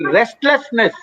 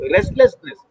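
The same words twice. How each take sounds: First: Said in the usual way. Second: Restlessness jumps much higher, falling off; stressed restlessness. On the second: Shown as a demonstration. Doctor stressing the new symptom to the host, stressed. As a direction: hit Restlessness high and let it fall.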